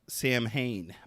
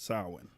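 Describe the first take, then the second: First: It is said as written, like Sam Hain. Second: It is said unlike its written letters. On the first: The speaker calls it wrong. "It looks like it's spelled like Sam Hain" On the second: The speaker calls it right. "pronounced Samhain"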